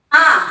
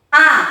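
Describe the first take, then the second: The two takes are said the same way.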